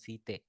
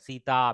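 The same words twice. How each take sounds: First: The name ends with a clipped, shortened final sound. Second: The name ends with a full, long final sound. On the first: Someone is being called or addressed. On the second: It is the ordinary form of the name.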